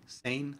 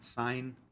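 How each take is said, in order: First: The vowel is 'ay', rhyming with lane. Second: The vowel is 'eye', rhyming with line.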